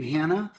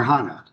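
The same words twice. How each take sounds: First: Hannah with the a of "hand"; Hannah with flat a. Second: Hannah with the ah of "father"; Hannah with broad a. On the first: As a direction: say Hannah with a short front a, as in "hand". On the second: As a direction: say Hannah as HAH-nah, open back a. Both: Shown as a demonstration. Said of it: "do you pronounce your name".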